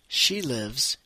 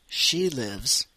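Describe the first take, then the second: Both takes have the same delivery.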